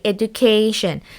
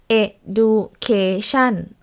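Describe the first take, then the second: First: The third syllable is higher, louder and longer. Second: All syllables are said evenly with no stress. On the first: The speaker calls it right. "So the syllable K is stressed" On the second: The speaker calls it wrong. "we won't pronounce it as education or like no stress at all"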